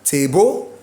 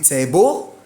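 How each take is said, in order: First: The stress is on the second syllable. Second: The same.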